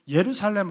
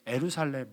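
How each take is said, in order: First: The first syllable starts with a 'y' glide. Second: The first syllable starts without a 'y' glide. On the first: The speaker calls it right. "예루살렘 하려면" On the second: The speaker calls it wrong. "잘 안 돼서 에루살렘 그렇게 해요"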